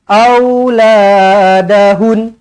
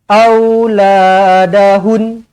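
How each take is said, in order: Both takes have the same delivery.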